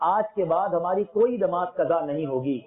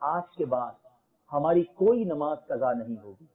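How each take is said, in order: First: The sentence is shouted loudly like a slogan. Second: The sentence is spoken at a calm, ordinary volume. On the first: The speaker calls it right. "ایسے نعرہ لگاؤ کہ شیطان یہاں سے بھاگ جائے" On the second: The speaker calls it wrong. "ایسے نہیں"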